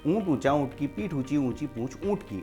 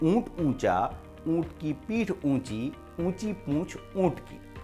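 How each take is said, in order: First: It is said at a fast pace. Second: It is said at a slightly quicker pace. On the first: "अब उसको speed से बोलना है" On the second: "फिर उसको थोड़ा स्पीड से बोलना है"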